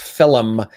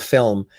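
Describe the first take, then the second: First: The word is said with two syllables. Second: The word is said with one syllable. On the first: It is how an older Irish speaker says it. "my father still says film" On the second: It is the standard way to say it. "instead of film"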